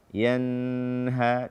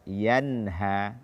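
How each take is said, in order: First: The n sound is held and lengthened. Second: The n sound is released quickly and clearly. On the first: The speaker calls it wrong. "menahan suara pada nun sukun pada kata yanha" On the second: The speaker calls it right. "Hukumnya adalah izhar halqi"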